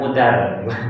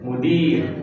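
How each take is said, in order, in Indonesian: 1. Suku kata terakhir memiliki vokal 'a'. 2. Suku kata terakhir memiliki vokal 'i'. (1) "Jangan mudar. Bukan mudar ya"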